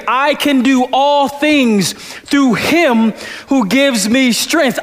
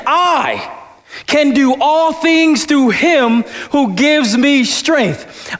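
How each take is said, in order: First: Slow, pressing hard on "him"; stress on HIM. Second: "I" sung out high, then a pause before the rest; stress on I. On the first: Pastor showing the church a stress on "him". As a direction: land the weight on "him". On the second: Pastor showing the church a stress on "I". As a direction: hang on the word "I" alone. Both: Shown as a demonstration. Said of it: "how you can emphasize every word".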